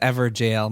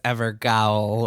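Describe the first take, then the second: First: The last part starts with a soft j sound. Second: The last part has a hard g, rhyming with howl. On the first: "Kirk says ever jail" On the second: "most of us out there are going to read that as ever gowl"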